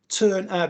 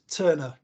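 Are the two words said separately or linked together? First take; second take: separate; linked. First: The two words are said separately. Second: The two words join into one word.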